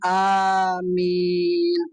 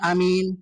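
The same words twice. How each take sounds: First: The first vowel is drawn out long. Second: The first vowel is kept short. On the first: May God grant the prayer. "itu A-nya dipanjangin" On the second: Honest and trustworthy. "itu berarti jujur, aman"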